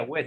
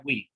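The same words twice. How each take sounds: First: "we" said as Spanish "güe"; wrong spelling pronunciation. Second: "we" said as "güi"; correct English pronunciation. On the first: Teacher shows what it would not be, "we" as "güe". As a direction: read "we" with an open e vowel. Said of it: "no sería we". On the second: Teacher corrects how it is pronounced, "we" as "güi". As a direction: say "we" with an "ee" vowel. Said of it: "sino sería we". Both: Shown as a demonstration.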